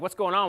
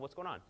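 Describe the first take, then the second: First: It is said in an aggressive, confrontational tone. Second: It is said in a calm, caring tone. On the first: The listener will feel attacked and get defensive. The speaker calls it wrong. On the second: The speaker shows concern for the listener. The speaker calls it right.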